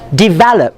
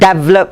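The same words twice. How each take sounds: First: The first syllable is short and reduced. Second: The first syllable is a full 'dev'. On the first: The speaker calls it right. "the correct pronunciation is develop" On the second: The speaker calls it wrong. "It's not develop, ... Because you want to spell D E V dev"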